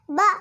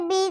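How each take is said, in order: First: ब as a short "buh", not "bee"; phonics letter sound. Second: Said in the usual way. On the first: Shown as a demonstration. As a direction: say ब as the bare B sound. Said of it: "ब पढ़ेंगे". (ब की छोटी ध्वनि) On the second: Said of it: "हम इसे बी नहीं पढ़ेंगे".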